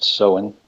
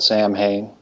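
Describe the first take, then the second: First: Samhain said the Gaelic way, "SOW-in"; correct pronunciation. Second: Samhain said as spelt, "SAM-hane"; common mispronunciation. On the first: Host correcting the holiday's name, Samhain pronounced "SOW-in". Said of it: "it's actually pronounced Samhain". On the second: Host quoting how most people call it, Samhain mispronounced as "SAM-hane". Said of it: "Most people call it Samhain". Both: Shown as a demonstration.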